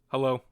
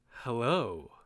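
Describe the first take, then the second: First: It sounds cold and dismissive. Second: It sounds warm and inviting. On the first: The speaker wants to push the listener away. "I'm trying to push you away" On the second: The speaker wants to draw the listener closer. "I'm trying to pull you in"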